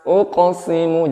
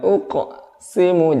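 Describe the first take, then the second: First: The word flows through without stopping. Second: The word is broken by a stop inside. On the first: The speaker calls it right. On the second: The speaker calls it wrong.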